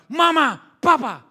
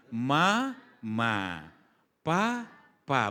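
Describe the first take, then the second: First: High, loud demanding yell; defiant teenager shouting. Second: Gentle, drawn-out syllables; mother teaching baby. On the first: Teenager whose wishes were refused, loud high demanding yell. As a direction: yell at the parents for refusing you. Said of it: "Tapi setelah remaja". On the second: Mother teaching her child first words, gentle drawn-out tone. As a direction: coax a baby to copy each word. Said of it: "Betul ya begitu nadanya?". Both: Acted.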